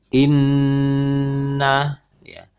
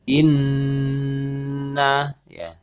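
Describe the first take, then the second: The two takes are said the same way.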